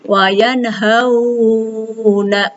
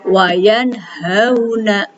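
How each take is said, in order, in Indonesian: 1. Vokal dalam 'yanhauna' dibaca panjang. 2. Vokal dalam 'yanhauna' dibaca pendek dan lunak. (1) "nggak boleh" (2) "Jadi hanya dibaca lainnya saja"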